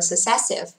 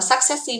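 First: The stress is on the second syllable. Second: The stress is on the first syllable. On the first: The speaker calls it right. "chỉ đọc là successive. Chữ âm của nó sẽ rơi thứ hai" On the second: The speaker calls it wrong. "từ này không đọc là successive đâu nha"

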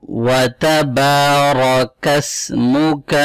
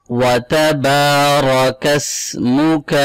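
No difference in how they are said.

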